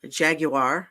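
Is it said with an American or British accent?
British. It is said with an English pronunciation.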